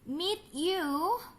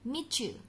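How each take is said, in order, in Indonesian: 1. Bunyi t dan y tetap terpisah. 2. Bunyi t dan y menyatu menjadi bunyi ch.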